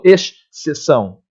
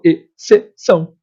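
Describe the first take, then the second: First: "exceção" como "es-sessão", com dois sons separados; som duplo, pronúncia errada. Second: "exceção" silabado, "e-ce-ção"; um só som de S. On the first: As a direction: segure um chiado extra na primeira sílaba de "exceção". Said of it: "Eu não falo exceção". (diga "exceção" partido em "esx... ceção") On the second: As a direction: diga "exceção" em sílabas soltas, com um único S. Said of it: "eu falo exceção". (pronuncie "exceção" sem chiado extra, sílaba por sílaba) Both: Shown as a demonstration.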